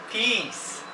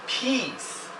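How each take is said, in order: No difference in how they are said.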